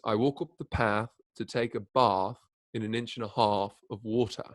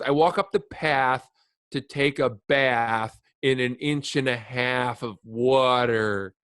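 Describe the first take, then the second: First: It is said in a British accent. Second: It is said in an American accent. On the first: "if you Britishize it" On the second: "impersonate American people"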